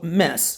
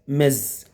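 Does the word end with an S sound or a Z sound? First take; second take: S sound; Z sound. First: The word ends with an S sound. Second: The word ends with a Z sound. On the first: The speaker calls it wrong. "most people say in mess. That's wrong" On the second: The speaker calls it right. "The pronounce is mez. Z, z"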